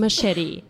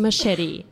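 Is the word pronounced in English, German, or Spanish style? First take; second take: English; English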